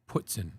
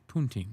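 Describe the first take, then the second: First: The word ends in a short 'tsin' sound. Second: The word ends in a long 'teen' sound. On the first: This is how people from New Hampshire say it. "if you're from New Hampshire, you call it putzin" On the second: This matches how the word is spelled. "It's spelled poutine"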